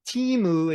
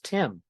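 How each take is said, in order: First: The name ends with an added vowel sound. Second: The name ends cleanly on the consonant. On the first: The speaker calls it wrong. "we need to use katakana because Timu is your name" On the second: The speaker calls it right. "My name is Tim"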